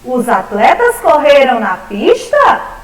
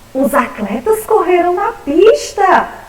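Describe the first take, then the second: First: It is said as a question. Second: It is said as a surprised exclamation.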